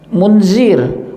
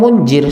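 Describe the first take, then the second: First: The middle consonant is a z sound. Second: The middle consonant is a j sound. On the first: It means one who gives warning. The speaker calls it right. "nama saya siapa? Munzir" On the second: The meaning becomes strange. The speaker calls it wrong. "Orang bilang munjir, salah"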